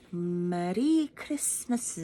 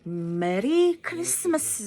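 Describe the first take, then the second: First: "Merry Christmas" slow and drawn out at normal pitch; slow demo. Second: "Merry Christmas" high and slow, each syllable drawn out; Merry Christmas said the Japanese way, slow and high; Japanese-style greeting. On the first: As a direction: draw out "Merry Christmas" slowly. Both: Shown as a demonstration. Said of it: "so that's how they say it".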